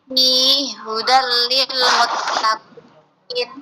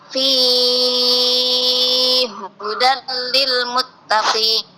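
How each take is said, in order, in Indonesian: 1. Vokal gabungan itu dipanjangkan dua harakat. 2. Vokal gabungan itu dipanjangkan enam harakat. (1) "Itu yang qasr" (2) "Yang ketiga tul"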